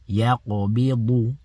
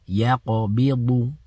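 The two takes are said the same way.

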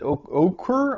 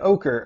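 First: The name is said close to its spelling. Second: The name is said unlike its spelling. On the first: The speaker calls it wrong. "I would pronounce it Oquir" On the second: The speaker calls it right. "That's not what it looks like, but fine ochre"

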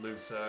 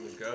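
First: The middle consonant is an 's' sound. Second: The middle consonant is a 'k' sound. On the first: The speaker calls it wrong. "I always pronounced it Lusa as a kid" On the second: The speaker calls it right. "It is Luca, though"

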